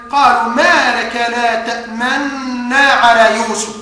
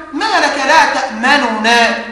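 First: Slow recitation with a held doubled noon in تأمنا; merged noon. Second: Two separate noons in تأمننا; original unmerged form. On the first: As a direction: hold one long noon in تأمنا. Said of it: "كلمة تأمنا في قوله تعالى". (إدغام النون في تأمنا بغنّة) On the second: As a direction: sound out ta'-ma-nu-na in تأمننا, nothing merged. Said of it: "أصل الكلمة". (إظهار النونين في تأمننا) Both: Shown as a demonstration.

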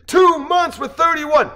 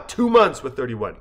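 First: High, loud, slow roar; crowd shout. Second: Said in the usual way. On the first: Acted. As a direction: answer the call like a rally crowd. Crowd answers the speaker's call.

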